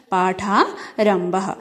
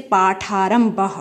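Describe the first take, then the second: First: पाठारंभः said slowly, every syllable clear; slow, syllable-clear word. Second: Said in the usual way. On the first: Shown as a demonstration. Teacher to class, saying पाठारंभः slowly. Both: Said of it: "संधि विच्छेद करते हैं".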